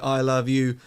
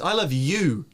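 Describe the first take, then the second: First: All three words get equal stress. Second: The stress is on the word you. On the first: The meaning is ambiguous. "three words say it in the same way" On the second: It is you and nobody else. "and nobody else"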